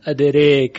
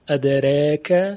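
First: The long vowel is fully raised toward e. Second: The long vowel is halfway between a and e. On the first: "و اماله تام ادریک" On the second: "تقلیل ادریک"

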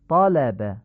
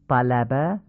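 First: The first vowel is a short, open aa. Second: The first vowel is a front, Persian-like a. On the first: The speaker calls it right. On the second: The speaker calls it wrong.

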